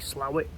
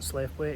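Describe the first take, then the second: First: It is said shortened, like 'slow-it'. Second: It is said as spelled, 'slaith-wait'. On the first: The speaker calls it right. "it's actually Slowit" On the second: The speaker calls it wrong. "the pronunciation of this place isn't Slaithwaite"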